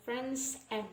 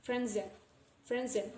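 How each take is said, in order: First: "Franzen" split in two, s ending the first part; unlinked pronunciation. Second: "Franzen" as one joined word; linked pronunciation. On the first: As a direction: separate "Franzen" into "friends" and "and". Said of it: "not Franzen". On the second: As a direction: slide the s straight into the ending of "Franzen". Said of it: "So we pronounce it as". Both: Shown as a demonstration.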